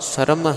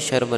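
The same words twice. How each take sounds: First: The word begins with a plain s sound. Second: The word begins with an sh sound. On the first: The speaker calls it right. "ਸ਼ੁੱਧ ਪਾਠ" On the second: The speaker calls it wrong. "ਕਿਸੇ ਨੇ ਭਾਈ ਇੱਥੇ ਸ਼ਰਮ ਨਹੀਂ ਕਹਿ ਦੇਣਾ, ਕਿਉਂਕਿ ਇੱਥੇ ਕੋਈ ਬਿੰਦੀ ਨਹੀਂ ਲੱਗੀ ਹੋਈ"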